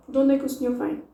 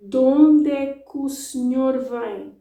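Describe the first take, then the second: First: Quick, words run together; De onde é que o senhor vem as one fast chunk; fast native speed. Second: Slower, still running together; De onde é que o senhor vem slow but linked. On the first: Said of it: "That was fast". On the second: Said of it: "That's how I would say it, slower". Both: Shown as a demonstration.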